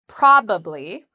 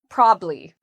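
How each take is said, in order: First: The word is said with three syllables. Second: The word is said with two syllables. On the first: "three syllables" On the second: "in conversation with two syllables"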